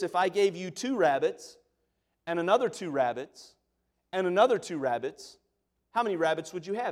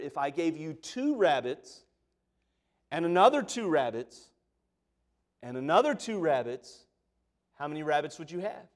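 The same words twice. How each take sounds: First: The question is said at normal speed. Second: The question is said slowly and deliberately.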